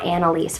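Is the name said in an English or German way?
English. The name is said with an English pronunciation. The speaker calls it wrong. "My name is not Anneliese"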